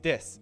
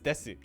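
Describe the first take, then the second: First: The final vowel is silent, ending on s. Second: The final u vowel is clearly voiced. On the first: "So desu is des" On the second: "because people want to pronounce it"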